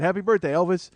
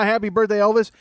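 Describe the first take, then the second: First: Said in the usual way. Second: Higher, louder sing-song "Happy birthday, Elvis"; mocking parody. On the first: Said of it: "She said". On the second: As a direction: parrot her words to ridicule her. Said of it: "everybody's like".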